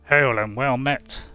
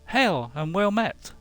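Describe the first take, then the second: First: The voice is pitched low and deep. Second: The voice is pitched high. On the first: "the first, the lowest one A" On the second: "the higher one C"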